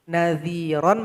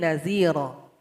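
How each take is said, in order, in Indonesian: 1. Kata ini berakhir dengan bunyi n. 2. Kata ini berakhir dengan vokal, tanpa n. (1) "harus dihilangkan salah satu" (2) "menjadi naziro"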